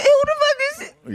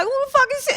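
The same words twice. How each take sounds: First: Higher, fast, near-crying outrage; mock frantic guy. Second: Higher, put-on outraged guy; mock jealous guy. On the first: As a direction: fire it off twice as fast, frantic. Guy voiced repeats question. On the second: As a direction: ham up a man's indignant question. Guy voiced reacting to friend talk.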